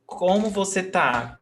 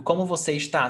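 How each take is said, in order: First: "tá" as one syllable, no "es" before it; contracted "tá". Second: "está" in two syllables, stressed on the last; full "está". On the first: Teacher shows how Brazilians write online, shortened "tá". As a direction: end the question on a clipped-form "tá" for "está". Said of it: "they write tá". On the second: Teacher gives students the full written form, uncontracted "está". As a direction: say the whole word "está", keeping its first syllable. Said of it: "they write está". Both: Shown as a demonstration.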